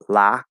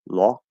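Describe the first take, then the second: First: The vowel is a fronted ah. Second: The vowel is a rounded aw.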